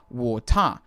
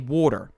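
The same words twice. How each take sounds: First: Said in a broad Australian accent, no final R. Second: Australian first vowel with an American-style R ending. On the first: "An Australian" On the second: "I pronounce the first part in an Australian way, ... but I pronounce the second part ... with that R"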